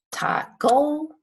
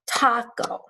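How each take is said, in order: First: Taco with the stress pushed onto the final CO; wrong stress on taco. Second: Taco stretched slow with stress on TA; stress on first syllable. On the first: Teacher asks do we say taco, wrongly end-stressed. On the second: Teacher offers the right taco, stressing TA. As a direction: hit the TA in taco. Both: Shown as a demonstration. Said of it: "the stress is on the A".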